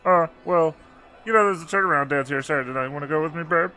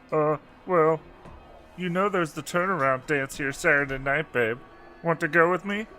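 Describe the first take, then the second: First: It is said very fast, like one word. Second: It is said at a normal pace.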